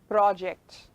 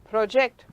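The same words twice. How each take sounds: First: It is said with the noun pronunciation. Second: It is said with the verb pronunciation. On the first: The word names a thing. "I'm using it as a noun. so I pronounce it as project" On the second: The word names an action. "Project, verb"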